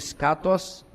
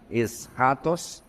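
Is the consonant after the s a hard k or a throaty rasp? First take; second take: hard k; throaty rasp. First: It has a plain hard k sound after s. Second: It has a throaty German-like rasp after s. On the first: "a palavra vem de skatos" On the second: "se você quiser ser mais purista"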